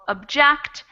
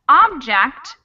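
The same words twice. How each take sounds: First: The stress is on the second syllable. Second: The stress is on the first syllable. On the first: It is used as a verb. "the verb version gets the stress in the second syllable" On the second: It is used as a noun. "So they get the stress in the beginning of the word"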